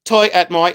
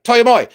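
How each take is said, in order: First: Said in the usual way. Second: Toi et moi rushed out fast and loud; said real quick. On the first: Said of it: "And I go". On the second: Retold or imitated. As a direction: blurt Toi et moi in one quick breath. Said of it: "And I said it real quick".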